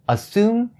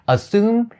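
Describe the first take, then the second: The two takes are said the same way.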